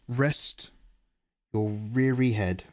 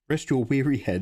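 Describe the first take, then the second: First: The word weary begins with an R sound. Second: The word weary begins with a W sound. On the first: The speaker calls it wrong. "I said that with an R instead of a W" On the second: The speaker calls it right. "There we go"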